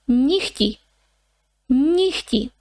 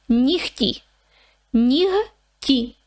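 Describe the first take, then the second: The two takes are said the same way.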